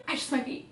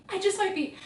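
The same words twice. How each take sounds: First: Said in the usual way. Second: Much higher, teasing sing-song; playful high repeat. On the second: Real, not acted. Admitting she is a Colleen Hoover fan, coy high repeat.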